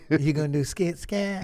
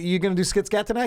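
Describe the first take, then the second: First: It is said in a soft put-on voice. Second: It is said in a normal voice.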